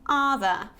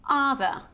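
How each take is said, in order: No difference in how they are said.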